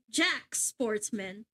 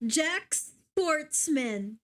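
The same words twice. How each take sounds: First: Jack Sportsman with a French zh on Jack, slow; French try. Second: Jack Sportsman said very slowly, deliberately; careful name. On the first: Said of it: "it's French". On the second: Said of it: "I'm gonna say the name properly". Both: Shown as a demonstration.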